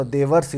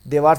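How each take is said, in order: First: देवर्षि with short a and final i; correct form. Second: देवार्ष with long aa and no final i; wrong form. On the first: Teacher giving students the correct word, short-a देवर्षि ending in i. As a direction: say देवर्षि as de-var-si. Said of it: "देवर्षि होता है". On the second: Teacher reading out the misspelling, long-aa देवार्ष. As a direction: say देवार्ष as de-vaars, ending on the consonant. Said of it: "देवार्ष नहीं होता". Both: Shown as a demonstration.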